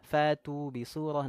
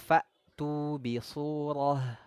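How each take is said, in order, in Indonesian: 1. Hamzah tidak ditekan dan tidak dihentikan. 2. Hamzah ditekan dan dihentikan secara tiba-tiba. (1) "Jangan sampai nanti bunyinya ... enggak boleh" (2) "ini harus kita tekan suaranya"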